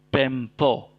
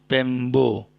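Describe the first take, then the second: First: The consonant after the m is a p. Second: The consonant after the m is a b. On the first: The speaker calls it wrong. "bukan Pempo" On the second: The speaker calls it right. "tapi Pembo, B"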